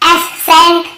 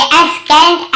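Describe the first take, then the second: First: एसेंट with the C silent, just an S sound; correct silent-C pronunciation. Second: एसकेंट with a K sounded after the S; wrong hard-C pronunciation. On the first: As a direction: say एसेंट slowly, no K after the S. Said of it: "केवल एसेंट पढ़ रहे". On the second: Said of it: "ऐसे नहीं पढ़ रहे". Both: Shown as a demonstration.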